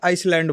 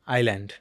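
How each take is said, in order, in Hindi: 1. इस शब्द में s की आवाज़ आती है। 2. इस शब्द में s की आवाज़ नहीं आती।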